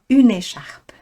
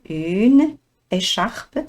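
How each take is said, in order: First: The two words are linked together smoothly. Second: The two words are said separately, without linking.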